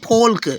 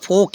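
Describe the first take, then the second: First: The L sound is pronounced before the k. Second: The L is silent, with no L sound. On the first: The speaker calls it wrong. "ये नहीं फोल्क" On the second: The speaker calls it right. "यल silent हो गया"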